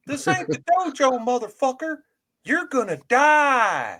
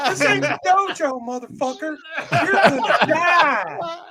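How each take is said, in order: First: High tough-guy threat, slowing on the end; Max DeVille impression. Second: Even higher mock threat, laughing through it; higher Max DeVille impression. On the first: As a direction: snarl it up high, then drag out the last words. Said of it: "that is a Max DeVille impersonation". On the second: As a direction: push it higher still, cracking up on the end. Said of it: "Still a little high, higher in register".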